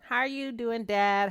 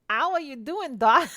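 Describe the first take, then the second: First: It is spoken in the speaker's normal accent. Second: It is spoken in an attempted Australian accent.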